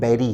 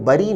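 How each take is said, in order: First: The first vowel is an 'air' sound. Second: The first vowel is a short 'uh' sound. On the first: The speaker calls it right. "बैरी है" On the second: The speaker calls it wrong. "ये शब्द बरी नहीं है"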